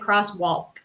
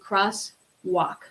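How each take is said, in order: First: The L sound is pronounced. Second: The L sound is silent. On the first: The speaker calls it wrong. "We don't say crosswalk" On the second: The speaker calls it right. "We want to say crosswalk"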